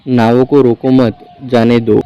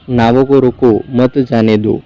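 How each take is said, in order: First: Group it as "नावों को रोको मत / जाने दो"; pause after मत. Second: Group it as "नावों को रोको / मत जाने दो"; pause before मत. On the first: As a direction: break after "मत", so "रोको मत" runs together and "जाने दो" stands apart. Written order, punctuation later altered. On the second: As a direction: break after "रोको", so "मत जाने दो" runs together. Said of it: "थोड़ा सुधार कर टंगवा दिया". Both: A narrator's reading.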